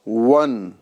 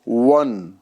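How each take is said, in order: Both takes have the same delivery.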